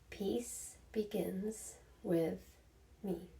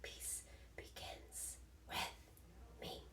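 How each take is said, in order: First: It is spoken in a normal voice. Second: It is whispered.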